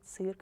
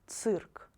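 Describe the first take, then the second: First: The first consonant is pronounced soft. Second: The first consonant is pronounced hard. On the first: The speaker calls it wrong. "Please don't try to pronounce them softer, like" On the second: The speaker calls it right. "these letters should be pronounced only hard"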